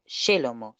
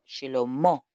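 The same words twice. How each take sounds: First: Shelomo with stress on the middle syllable, short final o; the wrong way, Shelomo with a short ending. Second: Shelomó with stress on a long, drawn-out final o; correct long final o. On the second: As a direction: lean on the last syllable of Shelomó and hold the o. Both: Shown as a demonstration. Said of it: "No es Shelomo, sino Shelomó".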